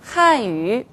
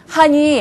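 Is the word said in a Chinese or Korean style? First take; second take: Chinese; Korean. First: It is pronounced with Chinese-style sounds. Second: It is pronounced with Korean-style sounds. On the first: The speaker calls it right. "이건 어떻게 합니까?" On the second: The speaker calls it wrong. "이거 한국식이에요"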